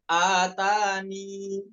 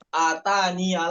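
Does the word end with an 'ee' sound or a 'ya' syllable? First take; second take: ee; ya. First: The word ends on a long 'ee' vowel. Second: The word ends with an added 'ya' syllable. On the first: The reciter is stopping at this word. The speaker calls it right. "Contohnya ketika wakof ya, atani" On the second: The reciter is joining it to the next word. The speaker calls it wrong. "bukan atania lagi karena wakof"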